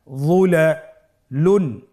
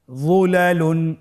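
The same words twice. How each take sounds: First: যুলালুন drawn out slowly; careful slow demo; slow blended reading. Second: Said in the usual way. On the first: Shown as a demonstration. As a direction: join the syllables slowly. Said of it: "ভেঙে ভেঙে পড়তে হয়". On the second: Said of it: "দ্রুত করে পড়ব".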